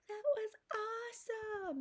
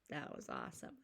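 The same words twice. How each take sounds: First: It is said loudly and excitedly. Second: It is said quietly and plainly.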